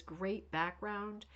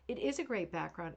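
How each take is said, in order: First: Drawn-out read of a comment; slowly read. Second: Said in the usual way. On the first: Shown as a demonstration. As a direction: stretch out great background slowly. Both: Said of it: "Judy says".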